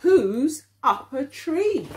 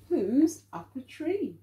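First: Slow, louder question for the class; slow read-aloud. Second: Said in the usual way. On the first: Acted. Teacher reading the question to children, slow and louder. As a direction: read it out slowly, a bit louder.

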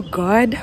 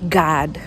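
First: "God" with a rounded o; "God" with a short, rounded African English vowel; Kenyan pronunciation. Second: "God" with an open ah, like "Gahd"; "God" with an unrounded American vowel; American pronunciation. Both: Shown as a demonstration. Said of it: "they call God".

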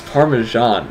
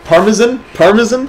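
First: Slow "Parmesan" as par-muh-ZHAHN; American pronunciation. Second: Higher, questioning "Parmesan" with short "zun" ending; mock-repeat "Parmesan" as a high question, last vowel swallowed; mimicked pronunciation. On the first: Shown as a demonstration. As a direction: stretch "Parmesan" out, ending in "zhahn". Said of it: "had to say it in an American accent". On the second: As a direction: say "Parmesan" as PAR-muh-zun, pitched up. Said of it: "he kept calling it Parmesan".

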